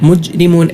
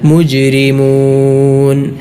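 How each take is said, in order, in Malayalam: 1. j ശബ്ദം സാധാരണമാണ്, ചലനമില്ല. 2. j ശബ്ദത്തിന് ചെറിയ പ്രതിധ്വനിയോടെയുള്ള ചലനമുണ്ട്. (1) "ചിലരൊക്കെ ഓതുന്നത് പോലെ ... മുജ്രിമൂൻ എന്നല്ല" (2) "ഖൽഖല ... നൽകിക്കൊണ്ട് മൊഴിയേണ്ട"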